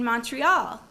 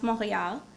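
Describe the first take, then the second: First: Said in the usual way. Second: Montreal said the French way, "mon-ray-AL"; French pronunciation. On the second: Shown as a demonstration. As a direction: pronounce Montreal as in French, silent t and French r. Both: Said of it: "also pronounced Montreal".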